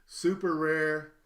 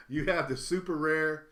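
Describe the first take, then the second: First: Super rare drawn out slow and louder; a slow, louder, savoured super rare; slow emphatic super rare. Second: Said in the usual way. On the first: Shown as a demonstration. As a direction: lean on super rare, stretch it out.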